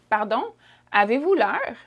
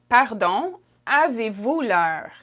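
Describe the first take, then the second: First: It is said quickly and casually. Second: It is said slowly and carefully.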